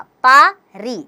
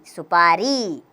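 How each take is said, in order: First: पा री said slowly, apart and a little louder; syllable by syllable. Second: Said in the usual way. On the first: Shown as a demonstration. Teacher building a word for pupils, slow separate syllables. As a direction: sound out पा and री separately. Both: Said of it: "स में छोटे की मात्रा सु".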